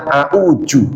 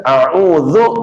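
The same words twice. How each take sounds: First: "a'uju" with j for dz; Betawi pronunciation. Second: "a'udzu" with a clear dz; standard pronunciation. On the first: Teacher showing how Betawi people read it, j sound. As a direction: say "a'uju", turning the dz into a j. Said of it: "dibaca a'uju". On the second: Teacher giving the correct form, clear dz. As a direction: say "a'udzu" with tongue between teeth on dz. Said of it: "Orang Betawi bisanya". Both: Shown as a demonstration.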